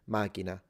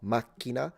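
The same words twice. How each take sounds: First: The k sound is short and soft. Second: The k sound is long and strong. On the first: This is the Sicilian form. "just single K, single, single k sound" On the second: This is the standard Italian form. "there is a strong k with a jump, a little glottal stop"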